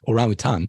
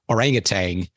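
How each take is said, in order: First: The word ends with a plain n sound. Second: The word ends with an added ng sound. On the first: The speaker calls it right. "which actually doesn't have a G at the end of that at all" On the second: The speaker calls it wrong. "It pains me to say it this way"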